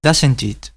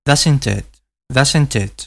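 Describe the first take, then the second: First: British "doesn't it" with a clear short I in "it"; British "doesn't it", linked, "it" kept as "it"; British accent. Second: American "doesn't it" with an E-like vowel in "it"; an American version of "doesn't it", "it" near "et"; American accent. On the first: Teacher gives the British form he teaches. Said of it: "yo como estoy enseñando el inglés británico". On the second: Teacher contrasts the American pronunciation for learners. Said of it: "con una especie de E". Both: Shown as a demonstration.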